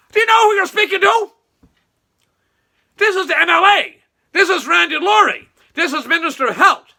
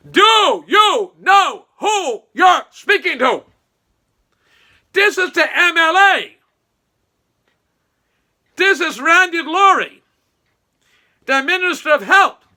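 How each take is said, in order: First: High, loud pompous mimicry of Randy; mocking Randy. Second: Mock shout. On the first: Mocking Randy as he demands respect from the worker, high and loud. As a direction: puff up like a self-important politician. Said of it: "he told individual". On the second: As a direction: bellow each word like an offended big shot. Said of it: "I'm gonna repeat that".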